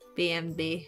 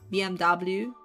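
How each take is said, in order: First: The letters are named with German letter names. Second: The letters are named with English letter names. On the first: "in German you say B M W" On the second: "in English should be B M W"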